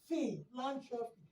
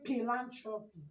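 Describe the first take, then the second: First: The word begins with an F sound. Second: The word begins with a P sound. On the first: The speaker calls it right. "You're going to be saying philanthropy. F sound" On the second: The speaker calls it wrong. "you're not going to be saying philanthropy"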